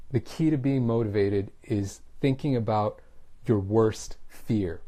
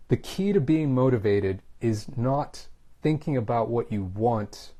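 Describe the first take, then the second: First: Teacher slowing on "your worst fear" to drive home a point; stressed point. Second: "what you want" slowed right down; teacher slowing on "what you want" to drive home a point; stressed point. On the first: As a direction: draw out "your worst fear" to hammer the message. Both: Shown as a demonstration. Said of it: "I'm gonna stress my point".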